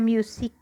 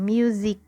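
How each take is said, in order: First: The middle consonant is a hissing s sound. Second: The middle consonant is a buzzing z sound. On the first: The speaker calls it wrong. "Hindi siya music" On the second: The speaker calls it right. "kundi music. Magiging Z"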